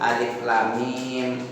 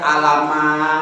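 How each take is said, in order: First: The letters are read with their full names. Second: The letters are read as short plain syllables. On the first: The speaker calls it right. "tapi hamim, alif lam mim" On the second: The speaker calls it wrong. "bukan alama"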